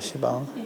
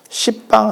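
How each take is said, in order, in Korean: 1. 'bang' 앞에 p 소리가 없어요. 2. 'bang' 앞에 p 소리가 있어요. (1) "시방입니다" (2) "십방 아니고요"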